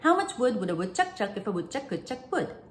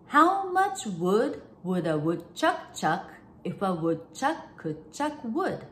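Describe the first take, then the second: First: It is said at a fast pace. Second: It is said at a slower pace.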